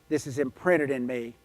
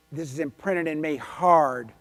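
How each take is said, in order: First: Said in the usual way. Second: "hard" drawn out and punched; slow down and land heavily on "hard"; stress on hard. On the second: Real, not acted. Speaker drives home a lesson imprinted in her, emphatic stress on "hard".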